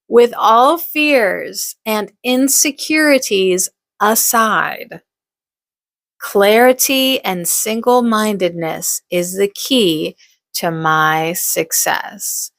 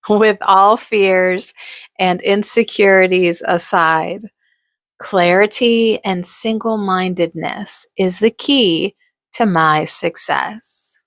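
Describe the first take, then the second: First: It is said firmly, with strong conviction. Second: It is said plainly, without special conviction.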